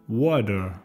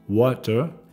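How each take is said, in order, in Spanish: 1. La consonante del medio suena como una D suave. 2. La consonante del medio es una T clara.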